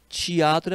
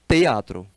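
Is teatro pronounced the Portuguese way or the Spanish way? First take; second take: Portuguese; Spanish. First: The word is said with Portuguese pronunciation. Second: The word is said with Spanish pronunciation. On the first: "Teatro é português" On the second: "em espanhol, teatro"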